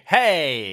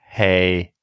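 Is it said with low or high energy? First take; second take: high; low. First: It is said with high energy. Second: It is said with low energy.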